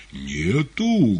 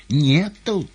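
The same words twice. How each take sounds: First: Louder menacing roar; menacing bass roar. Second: Higher, tender woman's voice; gentle female voice. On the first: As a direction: roar it like a threatening cook. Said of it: "грозным басом взревел повар". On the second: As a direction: coax it like a kind nurse. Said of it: "женским ласковым голоском". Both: A narrator's reading.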